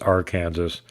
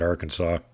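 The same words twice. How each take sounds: First: The ending sounds like the word Kansas. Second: The ending sounds like the word saw. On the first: It is the state's own Kansas. "so they made their own Kansas" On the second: Someone changed the name's sound. "somebody started mispronouncing it"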